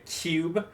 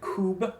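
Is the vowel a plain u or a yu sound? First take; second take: yu; plain u. First: A y glide comes before the u. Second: The vowel is a plain u. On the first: "we say cube" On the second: "Instead of saying cube"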